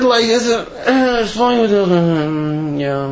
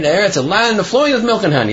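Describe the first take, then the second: First: Slurred mumble, words swallowed; indistinct, glossed-over murmur; not so clearly. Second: Said in the usual way. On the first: Acted. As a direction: mumble through "flowing with milk and honey" as if brushing past it. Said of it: "you know, not so clearly".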